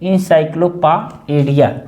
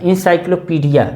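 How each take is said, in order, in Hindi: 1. बीच का अक्षर 'pie' की तरह बोला जाता है। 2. बीच का अक्षर 'pee' की तरह बोला जाता है। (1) "इंसाइक्लोपाएडिया बोलेंगे" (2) "इंसाइक्लोपीडिया जब तक बोलोगे आप तो गलत हो जाएगा"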